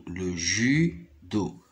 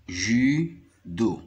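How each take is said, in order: First: Judo drawn out slowly, syllable by syllable. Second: Said in the usual way. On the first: Shown as a demonstration. Teacher to pupils, spelling out judo slowly. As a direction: stretch out the word judo for the class. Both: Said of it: "Regardez ici, en rouge, U, c'est le son U".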